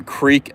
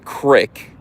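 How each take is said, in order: First: Creek with long ee; standard creek. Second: Crick with a short i; dialect creek. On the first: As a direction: stretch the ee in creek. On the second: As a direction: rhyme crick with brick. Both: Shown as a demonstration. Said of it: "pronouncing creek as crick".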